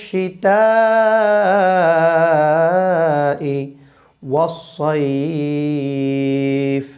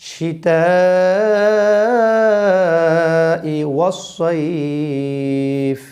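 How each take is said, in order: No difference in how they are said.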